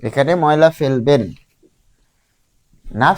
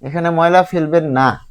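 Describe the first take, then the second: First: There is a pause before the word 'না'. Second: There is a pause after the word 'না'. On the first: Throw rubbish here, or pay a fine if you don't. "এখানে সে কমা use করছে, থামছে এখানে" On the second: Don't throw rubbish here, or pay a fine if you do. "এখানে কমা দিল"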